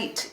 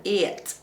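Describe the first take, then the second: First: Said in the usual way. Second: "it" stretched into ee-yit for eight; "it" said as ee-it, meaning eight; two-syllable "eight". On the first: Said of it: "eight is one syllable". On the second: Shown as a demonstration. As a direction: split "it" into two syllables, Northern Irish style. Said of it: "it is two syllables".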